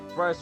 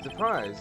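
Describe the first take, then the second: First: It is said in a normal reading voice. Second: It is said in a put-on fancy voice. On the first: "read normally" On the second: "I'm gonna stop doing the fancy voice"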